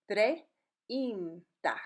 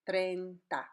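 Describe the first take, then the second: First: "treinta" broken slowly into treh, een, tah; slow teaching demo of "treinta"; slowed down, syllable by syllable. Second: "treinta" with E and I blended, like English "train"; E and I run together in "treinta"; blended vowels. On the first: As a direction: draw out "treinta" in separate vowel sounds. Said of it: "Don't say it slow and weird". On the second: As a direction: say "treinta" as TRAYN-tah. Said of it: "When you say it normally, it will blend". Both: Shown as a demonstration.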